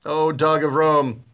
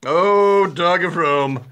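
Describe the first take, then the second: First: Mock tender recital. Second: Louder, swooning love-poem cry; mock dramatic declaration. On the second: Repeating the insult to the co-host as a mock love-poem cry. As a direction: declaim it like a lovesick poet. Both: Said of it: "Sounds like a love poem".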